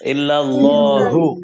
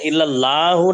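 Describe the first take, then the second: First: The middle l is doubled and held. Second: The middle l is single and short. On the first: The speaker calls it right. "বলতে হবে ইল্লাল্লাহু" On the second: The speaker calls it wrong. "ইল্লা লাহু না বলে"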